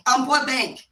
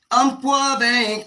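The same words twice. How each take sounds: First: Said in the usual way. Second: "Umpqua Bank" drawn out slowly, each word weighted; slow emphatic repeat. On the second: Shown as a demonstration.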